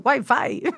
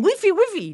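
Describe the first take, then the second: First: The word is pronounced a non-Spanish way. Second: The word is pronounced the Spanish way. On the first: The speaker calls it right. "no, es wifi" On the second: The speaker calls it wrong. "cuando los españoles, sobre todo los españoles, atención españoles, dicen wifi"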